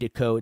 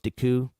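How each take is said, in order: First: The name ends with an 'oh' vowel. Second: The name ends with an 'oo' vowel. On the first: The speaker calls it wrong. "I say Deco" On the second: The speaker calls it right. "It's Deku"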